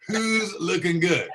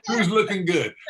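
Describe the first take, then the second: First: Drawn out, laughing through it; slow laughing brag. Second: Loud, laughing brag; gloating brag. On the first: Husband repeats his brag to audience, slower and laughing. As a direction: savor the brag slowly with a laugh. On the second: Husband gloats to audience about looking good, loud laughing brag. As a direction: crow about it to the crowd, laughing. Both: Acted.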